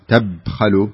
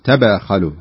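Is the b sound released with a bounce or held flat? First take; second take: flat; bounce. First: The b is closed flat with no bounce. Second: The b is released with a slight bounce. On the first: The speaker calls it wrong. "ما تقولين تبخلوا" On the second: The speaker calls it right. "لازم تبينين القلقلة هنا"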